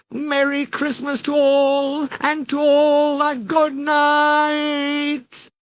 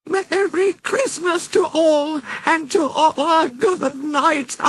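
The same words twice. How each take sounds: First: Much higher, drawn-out call, slowing at the end; Jack's fading cry. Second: Much higher, gleeful cackling cheer; Jack cackling. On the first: Jack calling his greeting while falling out of sight, drawn out. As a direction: call out as you tumble away. Voice heard as they fall. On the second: Jack calling out his greeting from the ghostly sleigh, cackling high. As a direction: crow it out like a gleeful ghoul. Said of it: "Jack cackled". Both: Acted.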